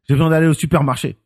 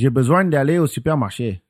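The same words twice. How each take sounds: First: It is said intensely, punching every syllable. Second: It is said flowing, nasal, with ups and downs.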